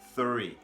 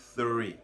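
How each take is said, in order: No difference in how they are said.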